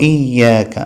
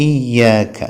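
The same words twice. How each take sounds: No difference in how they are said.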